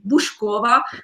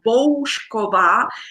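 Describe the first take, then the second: First: The first vowel is not like in home. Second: The first vowel sounds like in home. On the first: The speaker calls it wrong. "many people has pronounced my name very wrongly" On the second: The speaker calls it right. "it's like home"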